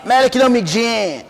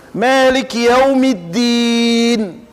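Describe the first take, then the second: First: "Malik Yawmiddin" spoken with a falling end, not chanted; wrong intonation. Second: "Malik Yawmiddin" chanted slowly, last vowel held long; correct recited intonation. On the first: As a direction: say "Malik Yawmiddin" as speech, dropping the held note. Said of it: "Não vai falar Malik Yawmiddin". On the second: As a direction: sustain the end of "Malik Yawmiddin" on a level note. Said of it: "foi preservado até a entonação". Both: Shown as a demonstration.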